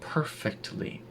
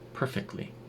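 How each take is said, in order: First: The t sound is clearly pronounced. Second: The t sound is dropped entirely. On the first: "if you're speaking very carefully, you would pronounce the t" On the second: "in rapid speech, that turns into perfectly. There's no t"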